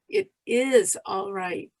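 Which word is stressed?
is. The stress falls on the word is. "emphasize each word separately"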